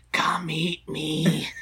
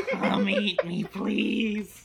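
First: Slow, drawn-out eerie whisper; whispering Twinkie. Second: Higher mock-pleading snack voice, laugh creeping in; whispering Twinkie. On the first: Pretend. Twinkie calling to a listener leaning closer, whispering. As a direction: whisper it slowly, as a talking snack luring someone. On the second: Twinkie begging to be eaten, in a laughing mock whisper. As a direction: beg playfully in a higher put-on little voice. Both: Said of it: "hear the Twinkies whisper".

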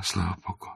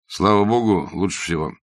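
First: Put-on much softer, timid young mother; shy young woman. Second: Brisk doctor. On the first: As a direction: answer the doctor bashfully, barely aloud. Shy young mother answers doctor. (робко и тихо, молодая мать) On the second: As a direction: toss it back like a confident doctor. Bazarov echoes her brisk reply. (бодро и уверенно, как доктор) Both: A narrator's reading.

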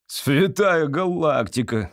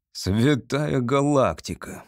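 First: Slow, drawn-out cry of outrage; mildly bellowed exclamation; outraged wail. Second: Slow, stunned exclamation; weakly awed, stretched words; stunned babble. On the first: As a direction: wail it out, stretching the vowels. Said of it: "завопил председатель суда". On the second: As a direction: utter it dumbfounded, drawn out. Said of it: "пролепетал, наконец, председатель суда". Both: A narrator's reading.

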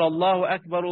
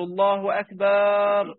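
First: Said in the usual way. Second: "أكبر" pulled out as "أكبار"; "الله أكبر" chanted with a wrong long a; mistaken long madd. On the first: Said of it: "اللي هو يقول". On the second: Shown as a demonstration. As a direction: drag the a before r in "أكبر" slowly. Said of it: "ليه بار دي؟".

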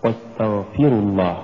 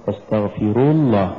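First: واستغفروا with a gentle push on ف; light pulse on ف in "واستغفروا الله", last syllable unpushed; correct recitation. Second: واستغفروا with the final رو pushed; forced stress on رو in "واستغفروا الله"; overdone wrong stress. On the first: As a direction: nudge the ف, not the رو, in واستغفروا. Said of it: "دفعة لطيفة لحرف الفاء". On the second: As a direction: punch the last syllable of واستغفروا into الله. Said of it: "لو دفعنا الحرف الأخير لصارت". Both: Shown as a demonstration.

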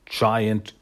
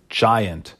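The two takes are said the same way.

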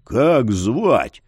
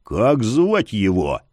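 First: Low hushed growl; holding back a shout. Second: Slow low growl; holding back a shout. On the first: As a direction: growl it, keeping it down. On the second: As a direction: press him, growling low. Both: Acted. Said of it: "прорычал Яр".

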